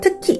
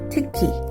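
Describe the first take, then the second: First: The word is punched out sharply and loudly. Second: The word is said smoothly without popping out. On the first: The speaker calls it wrong. "특히가 아니라" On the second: The speaker calls it right. "튀지 않게"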